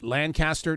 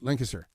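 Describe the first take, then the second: First: It is said the northern way. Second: It is said the southern way. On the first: The speaker is from the North. "people up north call it Lancaster" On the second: The speaker is from the South. "Down here, you say Lancaster"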